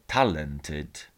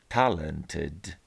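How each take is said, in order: No difference in how they are said.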